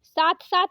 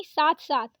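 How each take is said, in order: First: साथ साथ said as saat saat; wrong त for थ. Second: साथ साथ ending in breathed th; correct aspirated थ. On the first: Teacher showing the mistake, साथ साथ with plain t. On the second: Teacher correcting it, साथ साथ with aspirated th. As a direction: puff the थ in साथ साथ. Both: Shown as a demonstration. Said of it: "साथ साथ नहीं साथ साथ".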